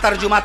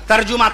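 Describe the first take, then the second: No difference in how they are said.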